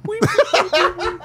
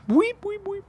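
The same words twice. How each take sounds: First: High laughing guinea pig squeaks. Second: High squeaky guinea pig weeps. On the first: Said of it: "that's the guinea pig noise they make". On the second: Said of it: "That's what Madame Bijou would say". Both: Retold or imitated.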